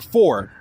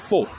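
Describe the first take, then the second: First: It is said in a New York accent. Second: It is said in a British accent. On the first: "In New York they'll say" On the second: "in uh, England I'll hear them say"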